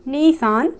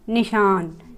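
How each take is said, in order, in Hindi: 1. पहला स्वर खींचकर लंबा बोला जाता है। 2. पहला स्वर छोटा और जल्दी बोला जाता है। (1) "नहीं" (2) "अगर निशान लिखना हो तो हम बोलेंगे निशान"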